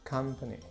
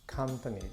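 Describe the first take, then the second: The two takes are said the same way.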